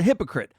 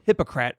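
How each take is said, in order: First: Said in the usual way. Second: Hypocrite said as "hippo-crat"; mocking mispronunciation. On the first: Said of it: "or hypocrite, as I like to call him". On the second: Shown as a demonstration. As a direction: end hypocrite on a full "crat", rhyming with Democrat. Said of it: "as I like to call him".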